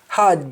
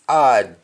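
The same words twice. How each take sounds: First: It is said in a standard English accent. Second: It is said in a Jamaican accent.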